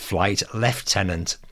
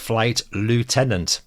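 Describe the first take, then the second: First: Lieutenant is pronounced the British way. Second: Lieutenant is pronounced the American way. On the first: The speaker calls it right. "he insisted that it was" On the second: The speaker calls it wrong. "I'd been brought up on comics and American war films"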